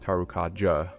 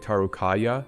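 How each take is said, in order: First: The j is said like a j sound. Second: The j is said like a y sound. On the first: This is how everyone else says it. "everyone else says Tarukaja" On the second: This is how the speaker used to say it. "I used to say Tarukaya"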